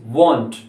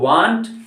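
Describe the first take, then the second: First: The vowel is a rounded 'o' sound. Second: The vowel is an open 'ah' sound. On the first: The speaker calls it right. "It's वॉन्ट" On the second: The speaker calls it wrong. "इसे वांट ना पढ़े, it's not वांट"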